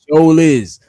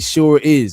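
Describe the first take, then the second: First: It is said with a rural Southern drawl. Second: It is said with a standard, non-Southern accent.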